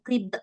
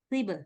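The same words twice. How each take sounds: First: The final consonant is cut off by a glottal catch. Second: The final consonant is released with a slight bounce. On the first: The speaker calls it wrong. "Jangan qib" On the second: The speaker calls it right. "Yang ini jangan ada hamzah"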